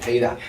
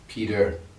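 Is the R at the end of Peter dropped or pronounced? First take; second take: dropped; pronounced. First: The final R is weak, non-American style. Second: The final R is strong, American style.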